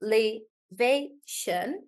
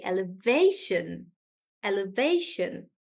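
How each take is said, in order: First: Elevation slowly split into four beats; syllable by syllable. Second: Elevation with VA as the strong syllable; stress on VA. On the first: Teacher breaking down a longer word, slow syllabled elevation. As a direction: spell out elevation beat by beat, with gaps. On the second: Teacher explaining the shift, elevation stressed on VA. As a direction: punch VA in elevation. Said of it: "I'll stress on way". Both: Shown as a demonstration.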